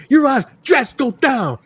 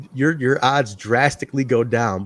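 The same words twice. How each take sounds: First: High, slurred "Your odds drastically go down" run together as "drasko"; mock mispronounced line. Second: Said in the usual way. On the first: Friend mimicking a wrestler's garbled promo, high and slurred. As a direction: imitate "drastically" swallowed into "drasko", pitched way up. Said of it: "it sounds like he's saying". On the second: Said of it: "he said the line is".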